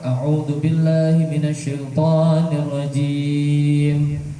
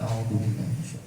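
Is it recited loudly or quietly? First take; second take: loudly; quietly. First: It is recited loudly. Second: It is recited quietly.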